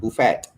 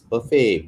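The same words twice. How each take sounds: First: The final T is pronounced. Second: The final T is silent. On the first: The speaker calls it wrong. "Ada yang sebut buffet" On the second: The speaker calls it right. "It's buffet"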